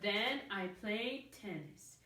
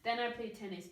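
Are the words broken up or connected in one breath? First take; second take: broken up; connected. First: The words are separated by small breaks. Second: The words flow together in one breath. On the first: The speaker calls it wrong. "Instead of" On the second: The speaker calls it right. "we can still say them in one breath"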